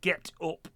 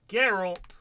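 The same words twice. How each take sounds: First: The T in 'get' is a clear T. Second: The T in 'get' sounds like an R.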